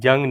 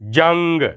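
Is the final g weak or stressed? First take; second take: weak; stressed. First: The final g is weak and unstressed. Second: The final g is pressed with force. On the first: The speaker calls it wrong. "जंग नहीं कहना, वो ज़ोर ही नहीं रहेगा" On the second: The speaker calls it right. "गाफ पर ज़ोर देकर"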